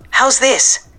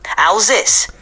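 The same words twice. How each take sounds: First: Higher feminine take, New York Puerto Rican; female voice. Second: New York Puerto Rican accent with more Hispanic flavor. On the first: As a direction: lift it into a woman's voice. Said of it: "Can it be female?". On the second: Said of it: "Can you make it more Hispanic?". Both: Shown as a demonstration.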